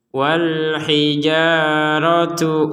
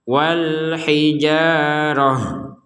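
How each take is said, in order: First: The word ends in a t sound plus vowel. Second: The word ends in a soft h sound. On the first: The reader carries on into the next word. "Dibaca tak itu kalau digabungkan dengan kata setelahnya" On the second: The reader stops after this word. "maka menjadi huruf ha"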